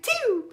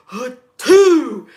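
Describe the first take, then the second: First: Small, high squeaky sneeze; normal-season sneeze. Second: Huge, loud reenacted sneeze; allergy sneeze. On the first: Shown as a demonstration. At work in normal season, dainty demo sneeze. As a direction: imitate a polite little sneeze, pitched way up. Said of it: "in just normal season". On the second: Working alone with bad allergies, reenacted booming sneeze. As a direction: blast out an explosive mock sneeze. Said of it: "allergies was killing me".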